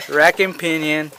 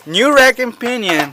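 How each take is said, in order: First: Said in the usual way. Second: High, punchy hard-sell pitch; used car salesman. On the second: Acted. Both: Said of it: "you sound like a used car salesman".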